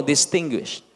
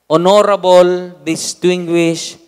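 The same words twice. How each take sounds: First: Said in the usual way. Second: "Honorable, distinguished" loud and very slow; stressed and drawn out. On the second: Shown as a demonstration. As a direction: hammer each word of "Honorable, distinguished" slowly. (binibigyang-diin at mabagal ang "Honorable, distinguished") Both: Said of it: "Sabi niyo nga po".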